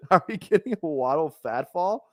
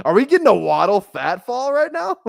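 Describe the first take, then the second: First: Said in the usual way. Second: Laughing excited. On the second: Real, not acted. Laughing at the fat Waddle photo.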